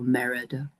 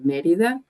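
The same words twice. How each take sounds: First: The name is pronounced with English sounds. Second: The name is pronounced with Spanish sounds. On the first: "in English we often say Merida" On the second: "in Spanish we say Merida"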